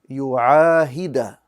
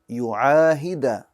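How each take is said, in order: First: The word ends with an 'a' vowel. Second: The word ends with an 'a' vowel.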